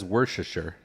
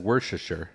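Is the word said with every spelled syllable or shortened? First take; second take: shortened; shortened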